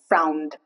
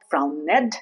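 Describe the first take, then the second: First: The -ed ending adds no extra syllable. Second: The -ed ending is voiced as an extra syllable. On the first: The speaker calls it right. "The E is not pronounced" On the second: The speaker calls it wrong. "it's not frowned, that's wrong"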